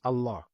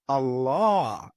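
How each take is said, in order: First: The vowel in the word is kept short. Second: The vowel in the word is drawn out long. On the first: It names God as written in the Quran. The speaker calls it right. "It's only written with one fatha. So you're only supposed to pronounce Allah's name as Allah" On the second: It names the moon god of a cult. The speaker calls it wrong. "I'm elongating that vowel. Allah is how they pronounce it"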